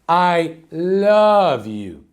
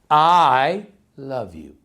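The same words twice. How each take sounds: First: The stress falls on the word love. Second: The stress falls on the word I. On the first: "emphasize in every different word of the sentence" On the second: "Let's start with the first one"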